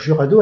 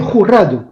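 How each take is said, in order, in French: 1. Il est prononcé avec un accent français. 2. Il est prononcé avec un accent espagnol mexicain. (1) "nous on va dire Jurado à la française" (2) "Normalement, on devrait dire Cathy Jurado. En fait, euh, en espagnol, à la mexicaine"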